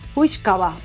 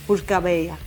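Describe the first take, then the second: First: The phrase ends with a short 'ba' sound. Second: The phrase ends with a longer 'beya' sound. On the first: This is the Irish way of saying it. "los irlandeses decían" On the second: This is the Scottish way of saying it. "los escoceses decían"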